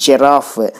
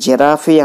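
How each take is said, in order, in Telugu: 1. ఈ పదం f అనే హల్లుతో ముగుస్తుంది. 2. పదం చివర అదనంగా ee అనే అచ్చు ఉంది. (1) "దీని ప్రొనౌన్సియేషన్ జిరాఫ్ అనాలండి" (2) "కానీ అందరూ జిరాఫీ అంటూ ఉంటారు"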